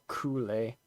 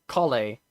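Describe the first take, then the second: First: The first syllable has a long 'oo' vowel. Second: The first syllable has a short 'o' vowel. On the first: The speaker calls it wrong. "not Cooley" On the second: The speaker calls it right.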